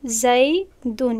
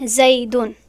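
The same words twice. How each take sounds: First: زیدون drawn out very slowly; teacher repeats زیدون slowly for students; slow careful model word; slow demo. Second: Said in the usual way. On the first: Shown as a demonstration.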